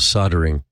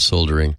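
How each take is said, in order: First: It is said the American way. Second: It is said the way it is spelled. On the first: "what in the US we call soldering" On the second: "even though it's spelled soldering"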